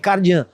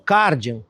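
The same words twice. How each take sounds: First: The name has a French pronunciation. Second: The name has a Brazilian Portuguese pronunciation. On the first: This follows the car's French origin. "o nome correto desse carro é Cardian" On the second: This is how it is commonly said in Brazil. "No Brasil a gente escutou bastante o Cardian"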